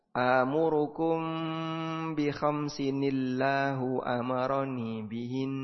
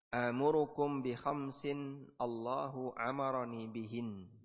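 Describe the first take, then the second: First: Khamsin links into Allahu with an added n sound. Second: Khamsin and Allahu are said separately, without linking. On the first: It applies the Quran recitation rules. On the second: It is read as ordinary Arabic text, not Quran.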